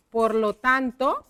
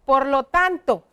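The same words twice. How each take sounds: First: "por lo tanto" drawn out, rising at the end; slow dictation. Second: Said in the usual way. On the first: Shown as a demonstration. Teacher repeats the connector while writing, slow dictation.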